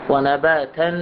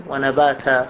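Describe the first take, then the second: Both takes have the same delivery.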